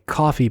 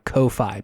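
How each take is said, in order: First: It sounds like the word coffee. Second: It starts with a long 'koh' sound. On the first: The speaker calls it right. "it stands to reason that it is a coffee page" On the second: The speaker calls it wrong. "not a Ko-Fi page"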